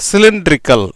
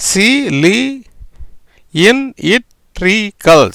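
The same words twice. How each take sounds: First: Said in the usual way. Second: சி, லி, இன், இட், ரி, கல் with pauses between; teacher breaking cylindrical into its sounds; syllable by syllable. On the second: Shown as a demonstration. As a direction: sound out each syllable separately. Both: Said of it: "எப்படி வருது பாருங்க".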